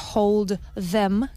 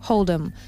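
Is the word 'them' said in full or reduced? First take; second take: full; reduced. First: The word them is said in full. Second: The word them is reduced to em. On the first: "no dice hold them, que sería lo correcto" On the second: "se hace esa contracción del them, ponemos un apóstrofe y m"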